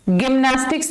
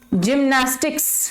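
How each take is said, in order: First: The word begins with a hard G sound. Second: The word begins with a J sound. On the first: The speaker calls it wrong. "गिम्नास्टिक्स नहीं होगा" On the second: The speaker calls it right. "Soft जी, यानी ज की sound"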